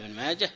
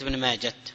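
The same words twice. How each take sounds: First: The name ends in a silent h sound. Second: The name ends in a t sound. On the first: The speaker calls it right. "بسكون الهاء وصلا ووقفا" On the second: The speaker calls it wrong. "ليست تاء، ليست ابن ماجه"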